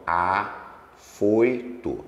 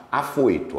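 First: Afoito stretched slowly, each syllable held; teacher sounds out Afoito very slowly for the class; syllables drawn out. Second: Said in the usual way. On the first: Shown as a demonstration. Teacher to class, Afoito drawn out syllable by syllable. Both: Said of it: "ó".

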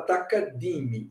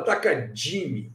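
First: "Takadimi" with a clean hard d in di; neutral 'di'. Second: "Takadimi" with di softened to 'djee'; Brazilian 'dji' sound. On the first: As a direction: say "Takadimi" with di as 'dee', no j. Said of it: "O mais neutro possível esse D I". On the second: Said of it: "O brasileiro fala Takadimi". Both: Shown as a demonstration.

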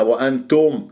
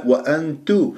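First: وأنتم with a thickened o in the last syllable; over-heavy tum. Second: وأنتو with a thin t and pure u; light rounded tu. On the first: Teacher shows the mistake, last syllable thickened. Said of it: "نضم الشفاه فيها وأفخمها". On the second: Teacher corrects the mistake, light pursed tu. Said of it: "لا". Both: Shown as a demonstration.

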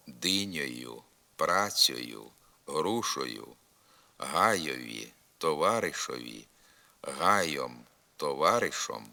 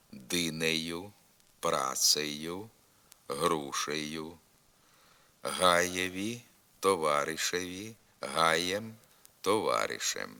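First: Динею, гаєм, товаришем with "o" for е: dynioyu, hayom, tovaryshom; dialect о endings. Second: Динею, гаєм, товаришем with a clear "e" in the ending: dyneyu, hayem; literary е endings. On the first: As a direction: put an "o" sound in the endings of динею, грушею, гаєм. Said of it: "Вимова тут замість «е» звука «о»". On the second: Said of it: "вимовляється голосний «е»". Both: Shown as a demonstration.

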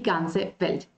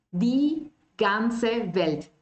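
First: Said in the usual way. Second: Die ganze Welt drawn out very slowly; slow model. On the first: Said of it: "Es durchströmt und es durchfließt die". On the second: Shown as a demonstration. Teacher modelling the phrase slowly.

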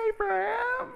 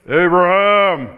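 First: Much higher, light sing-song call of the name; high squeaky call of the name. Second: Slow, loud commanding call of the name; thunderous divine call; booming call. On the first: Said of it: "It could sound like". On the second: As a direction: boom the name out like a voice from heaven. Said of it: "It sounds like this". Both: Shown as a demonstration.

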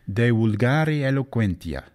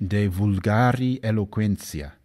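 First: Vulgari said as wul-GA-ri with a W, eloquentia ending -en-tia; the Latin way: wulgari, eloquentia; classical Latin. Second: Slower medieval Italian style, V in vulgari and -sia in eloquentia; la pronuncia di Dante: vulgari con la V, eloquentia con -sia; Dante's pronunciation. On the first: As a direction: classical Latin reading, vulgari starts with a W sound. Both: Shown as a demonstration. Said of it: "or as he might have pronounced it".

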